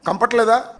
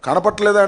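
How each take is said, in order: First: The word is slurred into kampatleda. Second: The word is said in full, kanapatleda. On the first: The speaker calls it wrong. "Telugu ఉచ్చరించడం కూడా రాదు" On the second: The speaker calls it right. "కనపట్లేదా అనమంటే"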